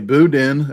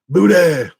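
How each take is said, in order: First: The word ends with a clear n sound. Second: The word ends without any n sound. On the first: "I say boudin" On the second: "you can't pronounce the ends on words"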